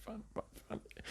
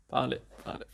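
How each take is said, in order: First: Fading into a whisper. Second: Said in the usual way. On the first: Real, not acted. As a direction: breathe it out under your breath. Finding his watch, repeating.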